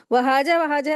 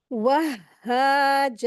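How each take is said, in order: First: "वहाजा, वहाजा" quick, with a single undoubled h; mistaken reading. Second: "वहाजा" very slow, "wah-haa-jaa", h doubled and vowels long; correct shadda. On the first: Teacher showing what to avoid, quick single-h reading. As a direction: rush "वहाजा" as wa-haa-ja without holding the h. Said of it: "ऐसे नहीं पढ़ेंगे". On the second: Teacher showing the right reading, slow doubled-h recitation. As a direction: hold the h of "वहाजा", then stretch both long vowels. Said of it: "ऐसे पढ़ेंगे". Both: Shown as a demonstration.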